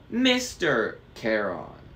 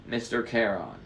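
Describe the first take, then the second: First: Slow, instructive Mister Charon, falling at the end; demonstrating the title. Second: Said in the usual way. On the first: A narrator's reading. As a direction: teach Mister Charon with a big punch on Mister. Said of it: "Say it with me". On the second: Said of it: "I said".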